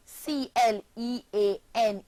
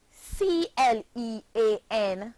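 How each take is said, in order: Both takes have the same delivery.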